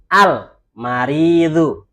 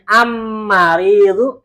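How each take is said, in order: First: The L is clearly sounded before the M. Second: The L merges into a doubled M sound. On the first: The speaker calls it right. "Karena alamnya dibaca" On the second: The speaker calls it wrong. "enak nggak? Nggak enak"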